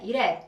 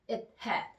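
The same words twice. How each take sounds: First: The two words are smoothly linked together. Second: The breath briefly stops after it.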